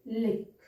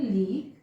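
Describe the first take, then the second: First: लिक with a short i; short vowel. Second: लीक with a long ee; long vowel. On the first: Teacher contrasting vowels for learners, short i in लिक. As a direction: keep the i in लिक brief. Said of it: "और short है तो लिक". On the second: Teacher giving learners the next example, long ee in लीक. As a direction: draw out the ee in लीक. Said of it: "sound आ रही है ई की तो dark". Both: Shown as a demonstration.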